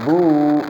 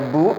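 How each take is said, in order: First: The vowel is long, two beats. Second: The vowel is short, one beat. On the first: "dibaca panjang. Bu, dua ketukan" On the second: "Asalnya bu pendek"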